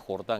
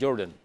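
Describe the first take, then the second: First: The stress falls on the second syllable. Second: The stress falls on the first syllable. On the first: It is the name as read from the written text. The speaker calls it wrong. "no era Jordan" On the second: It refers to the famous basketball player. The speaker calls it right. "era Jordan. ¿Se se acuerda de Michael Jordan?"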